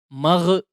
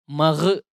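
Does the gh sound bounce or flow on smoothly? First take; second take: bounces; bounces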